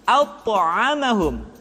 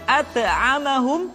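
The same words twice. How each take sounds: First: The first consonant sounds thick and heavy. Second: The first consonant sounds thin and light. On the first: The speaker calls it right. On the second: The speaker calls it wrong.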